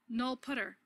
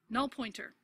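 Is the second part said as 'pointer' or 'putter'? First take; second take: putter; pointer. First: The second part is said as 'putter'. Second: The second part is said as 'pointer'. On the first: It marks the language keyword rather than the ordinary words. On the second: It is said like the ordinary English words.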